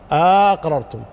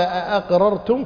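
First: The first vowel is lengthened; the second stop is slurred. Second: Two separate glottal stops are pronounced at the start. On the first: "يعني بمد الهمزة الأولى واختلاس الثانية" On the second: "فيها قراءتان المد والهمزتين"

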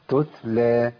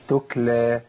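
First: The second consonant is a clear t sound. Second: The second consonant drifts back toward a k sound. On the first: The speaker calls it right. "هي تتلى" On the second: The speaker calls it wrong. "كتير من الناس بيبدا بالتاء بكاف"

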